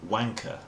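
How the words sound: It is said in a refined upper-class British accent. "In an upper class, received pronunciation accent"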